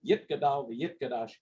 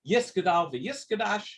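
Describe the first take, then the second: First: It is said in Sephardic Hebrew pronunciation. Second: It is said in Ashkenazi Hebrew pronunciation.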